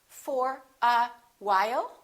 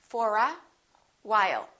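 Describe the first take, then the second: The two takes are said the same way.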